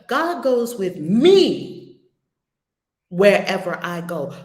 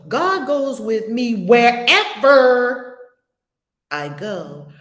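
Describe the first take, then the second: First: The stress falls on the word me. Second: The stress falls on the word wherever.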